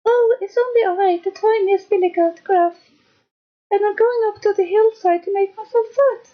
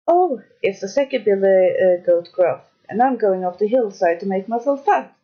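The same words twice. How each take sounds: First: Very high, tiny goat voice; small-voiced little billy goat. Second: Lightly voiced middle billy goat, ordinary pitch; not-so-small goat voice. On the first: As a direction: squeak it like the tiniest goat. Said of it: "with such a small voice". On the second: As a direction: play a bigger goat, only slightly characterised. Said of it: "who hadn't such a small voice". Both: A narrator's reading.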